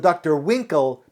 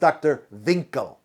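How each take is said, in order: First: The name begins with a W sound. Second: The name begins with a V sound.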